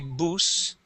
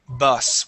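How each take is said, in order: First: The vowel is a long U sound. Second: The vowel is a short U sound. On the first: The speaker calls it wrong. "This is not a long U sound. We do not say bus" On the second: The speaker calls it right. "It is bus with a short U sound"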